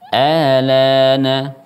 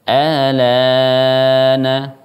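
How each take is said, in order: First: The long vowel is held for two counts. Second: The long vowel is held for four counts. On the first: "mad badal dua harokat" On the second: "mad badal empat harokat"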